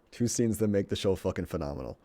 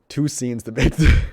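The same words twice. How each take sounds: First: Said in the usual way. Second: Booming restart that falls apart into laughter; loud burst, then breaking up. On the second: Real, not acted. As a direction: come back in loud and lose it mid-line.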